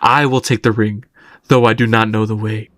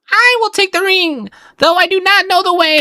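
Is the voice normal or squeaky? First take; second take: normal; squeaky. First: The line is spoken in a normal voice. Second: The line is spoken in a squeaky voice.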